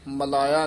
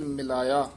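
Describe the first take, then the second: First: The first vowel is a short 'a'. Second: The first vowel is a short 'i'. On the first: The speaker calls it wrong. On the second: The speaker calls it right.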